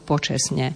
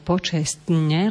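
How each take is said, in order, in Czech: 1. Hláska t se před n vynechá. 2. Hláska t se před n krátce zadrží. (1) "Počestne je absolútne nezmyselné slovo" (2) "zadržaná doba na vyslovovaní t"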